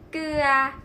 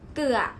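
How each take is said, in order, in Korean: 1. 모음을 더 길게 유지해요. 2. 모음을 잠깐만 유지해요. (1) "장모음은" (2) "단모음"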